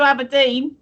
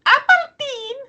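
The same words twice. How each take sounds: First: Said in the usual way. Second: Very high, put-on Scottish accent; caricatured Scottish voice, high-pitched. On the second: Shown as a demonstration. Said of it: "then I can do a Scottish accent".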